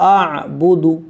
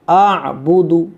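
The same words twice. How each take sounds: No difference in how they are said.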